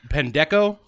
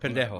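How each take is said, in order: First: The middle consonant is a hard k sound. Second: The middle consonant is a breathy h-like sound. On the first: The speaker calls it wrong. "the hard C" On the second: The speaker calls it right. "the soft C"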